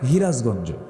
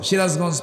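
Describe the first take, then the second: First: It starts with an h sound, Sirajganj-style. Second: It starts with a standard s sound.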